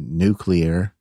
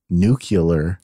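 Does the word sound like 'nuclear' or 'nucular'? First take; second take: nuclear; nucular. First: The ending is said as 'clear'. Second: The ending is said as 'cu-lar'. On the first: The speaker calls it right. "every time he referred to nuclear" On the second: The speaker calls it wrong. "didn't know he was saying nuclear"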